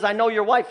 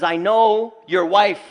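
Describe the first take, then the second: First: Said in the usual way. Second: Slow and louder, each word a threat; menacing jinn threat. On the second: Retold or imitated. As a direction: lean into it slowly like a stalking jinn. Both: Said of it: "He says".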